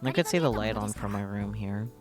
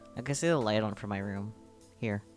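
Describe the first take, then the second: First: Here runs straight on from room, no pause. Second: A pause separates here from the sentence.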